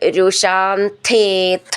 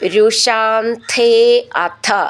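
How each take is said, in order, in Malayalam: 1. രണ്ടു വാക്കുകളും ചേർത്താണ് പറയുന്നത്. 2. രണ്ടു വാക്കുകളും വേറെ വേറെയാണ് പറയുന്നത്.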